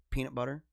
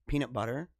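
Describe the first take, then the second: First: Said in the usual way. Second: "peanut butter" with the weight on BUTTER; stress on BUTTER. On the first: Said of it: "instead of peanut butter". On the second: Shown as a demonstration. Host copying how Canadian people say it, stress on "butter". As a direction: lean on "butter" rather than "peanut". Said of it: "they emphasize the butter".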